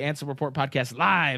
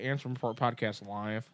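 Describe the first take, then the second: First: It is said with lively, hyped-up energy. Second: It is said in a flat, plain way. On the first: The speaker calls it right. "You gotta say it like that" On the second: The speaker calls it wrong. "that's not as cool"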